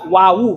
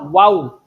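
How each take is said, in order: First: The word ends with an added vowel. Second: The word ends on a silent consonant. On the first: The speaker calls it wrong. "Jangan dibaca wawu" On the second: The speaker calls it right. "tapi wow, karena belakangnya mati"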